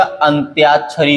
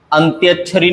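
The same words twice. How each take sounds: First: अंत्याक्षरी as 'antyaach-chhari'; correct long vowel. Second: अंत्याक्षरी as quick 'antyach-chhari'; wrong short vowel. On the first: Teacher gives the correction, अंत्याक्षरी with long tyaa. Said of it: "होता है". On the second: Teacher rejects a common error, अंत्याक्षरी with short tya. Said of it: "नहीं होता". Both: Shown as a demonstration.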